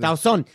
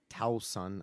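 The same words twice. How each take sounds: First: The name is said firmly, with confidence. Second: The name is said tentatively, without confidence. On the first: "say it with confidence" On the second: "I don't know if I'm saying that right"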